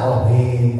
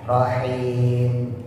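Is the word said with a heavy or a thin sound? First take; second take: heavy; thin. First: The word is said with a heavy, deep sound. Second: The word is said with a thin, light sound. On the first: The speaker calls it wrong. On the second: The speaker calls it right. "gitu ya"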